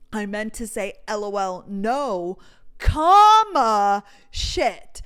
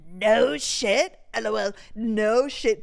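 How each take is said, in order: First: "no, comma, shit" broken up by pauses; spoken comma. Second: "No shit" as one phrase, no comma; "no shit" said straight through, emphatically; run-together "no shit". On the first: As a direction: spell out the punctuation with a big loud "comma". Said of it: "he didn't put the comma". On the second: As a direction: hit "No shit" as a sarcastic put-down. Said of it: "That was crazy that you said". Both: Retold or imitated.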